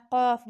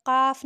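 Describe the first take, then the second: First: The correct काफ; right pronunciation. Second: काफ said as the wrong sound, a touch louder; the incorrect काफ; wrong pronunciation. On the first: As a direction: show the proper heavy काफ. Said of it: "काफ बोलना है". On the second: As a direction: show the mistaken काफ. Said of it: "इसको काफ नहीं बोलना". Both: Shown as a demonstration.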